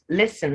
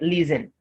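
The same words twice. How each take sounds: First: The middle consonant is a hissing s sound. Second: The middle consonant is a buzzing z sound. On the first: The speaker calls it right. "it doesn't change the S to Z. So it's listen" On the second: The speaker calls it wrong. "not listen"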